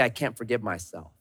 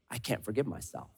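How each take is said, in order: First: Quiet defeated. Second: Low, much softer defeated sigh; despairing murmur. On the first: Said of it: "the moment I say". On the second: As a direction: someone crushed by guilt. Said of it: "And then we say". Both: Retold or imitated.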